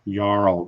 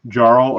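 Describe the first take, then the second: First: It starts without a J sound. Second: It starts with a J sound. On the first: The speaker calls it right. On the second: The speaker calls it wrong.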